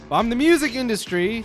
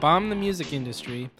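First: It is said with lively, exclamatory energy. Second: It is said flatly, without exclamatory energy. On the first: The speaker calls it right. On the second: The speaker calls it wrong.

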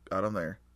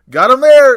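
First: It is said with the least energy. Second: It is said with very high energy.

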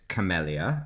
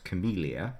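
First: The middle syllable sounds like 'mel' in Camel. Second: The middle syllable sounds like 'meel'. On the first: The name honours a person called Camel. The speaker calls it right. "I pronounced it camellia" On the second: This is the more familiar everyday form. The speaker calls it wrong. "which you might be more familiar with"

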